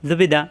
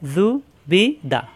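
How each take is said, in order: First: The syllables are run together quickly. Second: The syllables are said separately with gaps.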